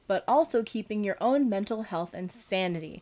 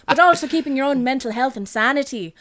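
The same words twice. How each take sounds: First: It is read in the speaker's usual accent. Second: It is read in a put-on Dublin accent.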